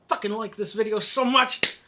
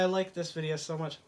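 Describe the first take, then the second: First: It is said angrily and forcefully. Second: It is said softly and tenderly, like a lover.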